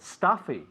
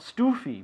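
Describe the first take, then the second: First: The first vowel sounds like 'u' in cup. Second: The first vowel sounds like 'oo' in food. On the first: The speaker calls it right. "but stuffy" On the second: The speaker calls it wrong. "Not stoofy"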